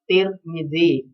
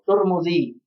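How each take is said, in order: First: Both the first and second vowels are i. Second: Both the first and second vowels are u. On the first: "dengan tak dan mim yang di dhammah" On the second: "dengan tak yang di dhammah dan mim yang di dhammah"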